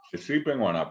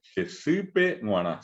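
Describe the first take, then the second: First: Said in the usual way. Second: Se sipe guaná said slowly and high, nasal gue in guaná; teacher's slow model of Se sipe guaná; slow nasal demo. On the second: Shown as a demonstration. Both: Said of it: "la gue es la gue nasal".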